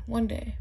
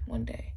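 First: Said in the usual way. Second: Softer, lower, dreamy; wistful hush. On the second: Real, not acted. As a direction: sigh it out quietly. Wistful repeat about moving.

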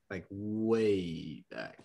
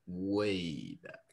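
First: "way back" stretched very slow, WAY leaned on; drawn-out way back. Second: Said in the usual way. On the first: Shown as a demonstration. Telling a friend how far the drive went, slowly drawn out.

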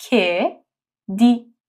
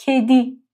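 First: کدی stretched very slowly; slow syllable demo. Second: کدی with a clear k; Turkish word kedi. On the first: (کدی آهسته و کشیده) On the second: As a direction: say کدی slightly slower. (کدی با ک واضح) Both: Shown as a demonstration.

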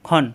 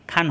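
First: খন with a short heavy "o" vowel, no long aa; correct short khon. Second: খান said with a long open "aa", the wrong way; the incorrect reading খান with drawn-out aa; wrong long kha. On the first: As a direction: keep খন short and thick from the throat. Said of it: "খ আলিফ দুই জবর খন". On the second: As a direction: stretch the vowel in খান as the mistake to avoid. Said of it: "খান হবে না". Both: Shown as a demonstration.

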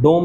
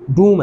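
First: "डोम" with an o vowel instead of oo; mispronunciation. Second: "डूम" with a long oo vowel; correct pronunciation. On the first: Teacher showing students the rejected reading of dome, mispronunciation. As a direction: say "डोम" with a long o. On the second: Teacher correcting students on the word for dome, correct pronunciation. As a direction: say "डूम" with oo, silent e ending. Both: Shown as a demonstration. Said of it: "डोम नहीं है".

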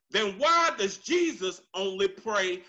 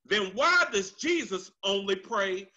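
Both takes have the same delivery.

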